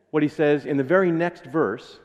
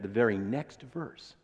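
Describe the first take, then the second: First: Said in the usual way. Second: "very" leaned on, slowed and softer; slow down and weight "very"; stress on very. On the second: Shown as a demonstration. Preacher repeating "very next verse" for emphasis. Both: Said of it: "let me repeat that".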